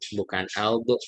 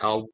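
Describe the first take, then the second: First: The consonant ends with a bounced, echoing release. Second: The consonant stops cleanly without any echoing release. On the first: The speaker calls it wrong. "jangan dikolak-kolakan Pak. Au, bukan au" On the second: The speaker calls it right. "tapi au"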